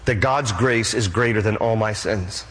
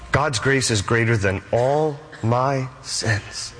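First: Said in the usual way. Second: "all my sins" drawn out word by word; slow right down and separate "all", "my", "sins"; slow emphatic repeat. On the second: Real, not acted. Preacher repeats assurance of grace, slow weight on "all my sins".

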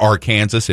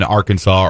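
First: "Arkansas" said as ar-KAN-zus; "Arkansas" misread just as it is spelt; deliberate mispronunciation. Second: Said in the usual way. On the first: Shown as a demonstration. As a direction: say "Arkansas" like Kansas with "Ar" in front, final s sounded. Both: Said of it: "if you like to mispronounce things".

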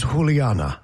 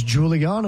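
First: "Juliana" with the J sounded like an H; Spanish J pronunciation. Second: "Juliana" with a hard English J; English J pronunciation. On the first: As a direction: say "Juliana" as hoo-lee-AH-na. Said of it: "They know the who sound". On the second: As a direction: say "Juliana" as joo-lee-AH-na. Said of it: "as Juliana with a J". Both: Shown as a demonstration.

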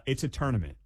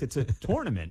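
First: "tournament" as "TURN-ament"; first syllable of "tournament" like "turn"; boss's correction. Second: "tournament" as "TORE-nament"; first syllable of "tournament" like "tore"; old pronunciation. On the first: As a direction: correct it to "TUR-nament". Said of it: "He goes". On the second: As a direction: say "tournament" with an OR vowel. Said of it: "I don't say tournament anymore". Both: Retold or imitated.

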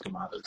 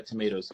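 First: Tomatoes with an AH, "tuh-MAH-toes"; broad-A pronunciation. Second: Tomatoes with an AY, "tuh-MAY-toes"; long-A pronunciation. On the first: Doctor gives the other way of saying it, tomatoes as tuh-MAH-toes. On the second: Doctor compares two ways of saying it, tomatoes as tuh-MAY-toes. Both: Shown as a demonstration. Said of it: "You can say it either way".

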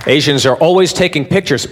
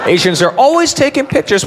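First: Said in the usual way. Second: High, emphatic repeat of the claim; higher replay. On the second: Shown as a demonstration. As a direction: say it again pitched way up.

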